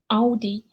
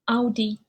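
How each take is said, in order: First: It is said with a German pronunciation. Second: The same.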